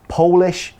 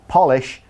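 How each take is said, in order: First: The first vowel sounds like the vowel in go. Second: The first vowel sounds like the vowel in hot. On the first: It means from Poland. "from Poland" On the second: It means something that makes shoes shiny. "cleans your shoes"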